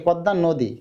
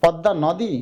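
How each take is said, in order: First: "নদী" said "no-di", rounded o; closed o. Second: "নদী" with open "naw"; open vowel. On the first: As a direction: round the first vowel of "নদী" into ও. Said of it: "একটু বলো তো". (ও-কারের মতো "নদী") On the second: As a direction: say "নদী" as spelt, unrounded অ in ন. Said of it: "আমরা কি নদী বলি". (খোলা অ দিয়ে "নদী") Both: Shown as a demonstration.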